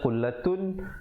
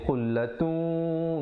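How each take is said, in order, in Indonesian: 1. Bunyi n akhir diucapkan dengan jelas. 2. Bunyi n akhir menyatu ke w dengan dengung sengau. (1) "asalnya khullatun" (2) "bila datang waw jadi khullatun, dua harakat"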